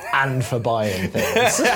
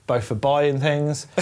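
First: AND drawn out, phrase very slow; stress on AND. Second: Said in the usual way. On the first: Shown as a demonstration. Confessing to no willpower for shopping, slow deliberate stress on AND. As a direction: lean on AND as if adding a new item. Joke repeats phrase with contrast.

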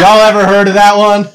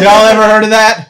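First: Louder hammed-up catchphrase. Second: Louder hammed-up catchphrase repeated. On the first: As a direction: deliver it like a running gag. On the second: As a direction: say the running gag once more. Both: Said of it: "Greatest hits alert".

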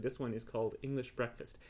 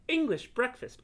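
First: Said in the usual way. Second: High, louder, incredulous ENGLISH BREAKFAST; astonished echo. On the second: Acted. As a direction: echo the name in amazement. Cat repeats name in surprise.

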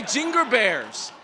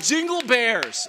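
First: Put-on slow Korean-accented jingle. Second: Put-on Korean accent. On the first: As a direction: drawl it like a Korean Santa. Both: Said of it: "only he sings".

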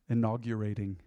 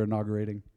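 First: "inaugurating" said with a y-glide after the g; careful re-pronunciation. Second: Said in the usual way. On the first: Shown as a demonstration. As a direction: sound out "inaugurating" as in-aug-yu-rating, softly. Repeats word, sounding it out afresh.

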